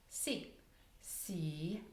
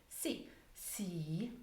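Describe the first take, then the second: No difference in how they are said.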